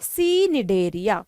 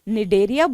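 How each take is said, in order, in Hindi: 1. शब्द 'nidaria' से पहले एक बोली जाने वाली 'see' आवाज़ से शुरू होता है। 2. शब्द सीधे 'nidaria' से शुरू होता है, C साइलेंट है। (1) "सी मैंने इसलिए बोल दिया आपके लिए ताकि आपको आसानी पड़ जाए" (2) "इसको वैसे निडेरिया बोलते हैं"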